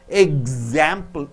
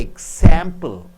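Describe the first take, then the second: First: The x is sounded as gz. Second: The x is sounded as ks. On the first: The speaker calls it right. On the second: The speaker calls it wrong. "you don't say example"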